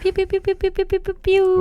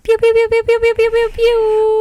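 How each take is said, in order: First: It is said with low energy. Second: It is said with high energy.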